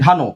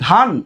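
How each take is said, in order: First: The word ends with an added final o vowel. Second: The word ends on the consonant n, no vowel. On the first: The speaker calls it wrong. "ধান নাকি ধানো?" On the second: The speaker calls it right. "আমরা বলি ধান।"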